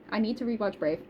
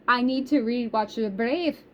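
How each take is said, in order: First: Said in the usual way. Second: Put-on playful Scottish accent drifting into Irish; botched Scottish lilt, slightly Irish; attempted Scottish accent. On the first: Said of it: "I don't know what accent that was". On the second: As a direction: try a Scottish accent, not quite landing it. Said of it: "I was trying to do Scottish".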